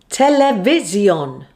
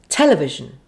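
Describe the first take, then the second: First: Every syllable gets equal strong stress. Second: Only one syllable gets strong stress. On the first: The speaker calls it wrong. "you might end up stressing all the vowels, a bit like this" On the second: The speaker calls it right. "it should sound like this"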